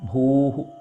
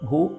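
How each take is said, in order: First: The syllable ends with an echoing breathy h. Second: The syllable stops on a plain long vowel. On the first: The speaker calls it right. "ഭൂഹു എന്നാണ് അവിടെ അക്ഷരം" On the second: The speaker calls it wrong. "ഭൂ എന്ന് നിർത്തരുത്"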